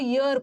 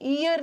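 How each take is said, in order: First: The word begins with a clear 'y' sound. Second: The word begins with a plain vowel sound. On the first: The speaker calls it right. "इसको ईयर पढ़ना है" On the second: The speaker calls it wrong. "इसको ईयर नहीं पढ़ना"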